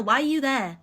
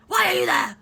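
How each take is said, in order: First: Said in the usual way. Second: Higher and louder repeat, fed up; exasperated. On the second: Retold or imitated. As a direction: fire it back in disbelief.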